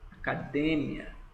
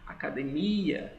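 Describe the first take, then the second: First: The stress falls on a syllable other than mi. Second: The stress falls on the syllable mi. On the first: This is the Spanish pronunciation. "Saibam que a tonicidade é diferente" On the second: This is the Portuguese pronunciation. "a tonicidade aqui, ó, no mi"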